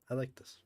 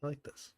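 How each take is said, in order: Both takes have the same delivery.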